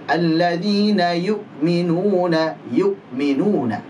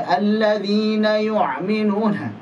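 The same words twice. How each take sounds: First: Alladzina yu'minuna slow with a crisp glottal stop on yu'minuna; clear hamzah. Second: Alladzina yu'minuna higher, with hamzah pushed into a throaty ain; wrong ain sound. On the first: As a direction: model yu'minuna with a clean hamzah. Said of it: "Hamzahnya jelas". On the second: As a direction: show the mistake, hamzah sliding into ain. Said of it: "Ini lari ke ain". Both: Shown as a demonstration.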